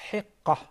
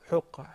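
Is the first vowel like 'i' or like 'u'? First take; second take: i; u. First: The first vowel sounds like 'i'. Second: The first vowel sounds like 'u'. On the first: The speaker calls it right. "the right pronunciation of the third one is" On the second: The speaker calls it wrong.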